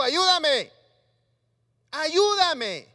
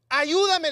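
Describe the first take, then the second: First: Loud, desperate cry of ayúdame; shouted plea. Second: Loud cry of ayúdame; shouted plea. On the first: Preacher acting Pedro calling to Jesus from the water, a loud desperate shout. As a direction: yell it like a drowning man. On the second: Preacher again acting Pedro pleading as he sinks, loud and desperate. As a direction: cry out for rescue. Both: Acted. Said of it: "Perdón si grito".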